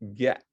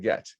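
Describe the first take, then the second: First: The final t is swallowed, not released. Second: The final t is clearly released. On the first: The speaker calls it right. "T is gulped at the end of a word" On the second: The speaker calls it wrong. "rather than"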